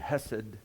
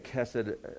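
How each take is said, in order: First: It is said the way it sounds in Hebrew. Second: It is said the way some English speakers say it. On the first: "in the Hebrew it'd be hesed" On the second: "Some say kesed"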